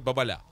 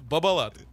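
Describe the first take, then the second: First: The name is said in a French way. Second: The name is said in a plain Russian way. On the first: "особенно французскоязычных, говорят бабаля" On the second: "надо понять, что это бабалат"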